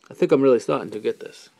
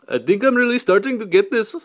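First: Said in the usual way. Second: High, loud put-on voice; mock-crazed outburst. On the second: Vlogger clowning about getting the hang of it, mock-crazed outburst. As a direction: blurt it out much higher and louder.

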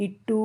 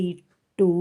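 First: "ఇట్టూ" with the final uu held long. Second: "ఇట్టు" ending on a short u. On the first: Teacher showing the long kommu, stretched final uu in "ఇట్టూ". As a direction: draw out the end of "ఇట్టూ". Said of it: "కొమ్ము దీర్ఘం ఇస్తే". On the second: Teacher showing the kommu sign, short final u in "ఇట్టు". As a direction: keep the final u of "ఇట్టు" brief. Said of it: "ఇట్టా కొమ్మిస్తే". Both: Shown as a demonstration.

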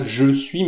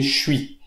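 First: «Je suis» with both syllables, jeu-suis; full form. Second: «Je suis» squeezed into «chui»; elided form. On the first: Teacher showing learners the unelided form, fully pronounced. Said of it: "On ne dit pas". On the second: Teacher showing learners the spoken form, elided «chui». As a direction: drop the «e» so «Je suis» becomes «chui». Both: Shown as a demonstration.

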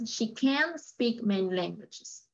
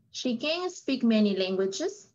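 First: Slow, CAN'T drawn out before "speak"; negative CAN'T. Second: "can" short, joined straight to "speak"; affirmative CAN. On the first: Teacher giving the negative example, CAN'T emphasized. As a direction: hold "can't" long to mark the negative. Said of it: "el negativo es". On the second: Teacher repeating Luis's affirmative example, CAN unstressed. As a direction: pass lightly over "can" into "speak". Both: Shown as a demonstration.

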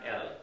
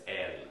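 First: El with a short, quick E. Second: El with a longer, drawn E. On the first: Teaching the short El to the class. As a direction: clip the E in El short. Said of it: "So it's a quicker E sound". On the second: Teaching the long El meaning God. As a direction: stretch the E in El. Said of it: "which is God". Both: Shown as a demonstration.

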